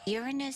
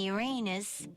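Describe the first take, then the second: First: It begins with a sound like 'urine'. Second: It sounds like the phrase 'your anus'. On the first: "Uranus sounds like urine" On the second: "Uranus probably sounds like your butt"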